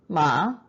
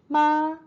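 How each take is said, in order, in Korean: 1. 음높이가 중간에서 높게 올라갑니다. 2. 음높이가 높고 평평하게 유지됩니다.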